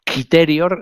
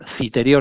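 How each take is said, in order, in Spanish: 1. La palabra se pronuncia a la manera latina. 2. La palabra se pronuncia a la manera castellana. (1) "en latín se llama Hispania Citerior" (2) "si la pronunciamos con la fonética castellana"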